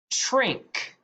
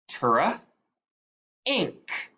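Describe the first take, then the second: First: Said in the usual way. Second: "Tra. Ink." as trink broken into tr and ink; "Tra" for the blend, then a separate "Ink"; sounded out. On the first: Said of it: "put them together". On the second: Shown as a demonstration. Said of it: "go to sound 'em out".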